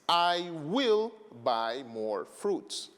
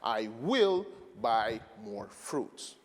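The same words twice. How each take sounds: First: The stress falls on the word fruits. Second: The stress falls on the word will. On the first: "we have fruits" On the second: "we have the stress of the word will to show that I'm one hundred percent sure"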